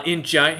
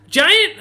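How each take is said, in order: First: Said in the usual way. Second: A sudden very high, loud chirp of a word; owl creature's greeting. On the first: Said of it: "he goes". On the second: Acted. Owl innkeeper greeting the party, very high and loud. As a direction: pop up high like an excited little owl. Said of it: "in giant, he goes".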